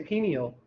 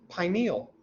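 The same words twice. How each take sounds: First: The first syllable does not sound like pine. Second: The first syllable sounds like the word pine. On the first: It suggests the thing looks like something else. The speaker calls it wrong. "you think it looks like something else" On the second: It names something shaped like a pine cone. The speaker calls it right. "Here's how we pronounce it usually"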